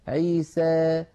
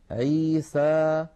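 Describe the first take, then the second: First: The final vowel leans slightly toward 'ee'. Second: The final vowel is an open, pure 'a'. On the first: "يخلطون هذا الصوت بشيء من الياء" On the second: "فتحا وسطا"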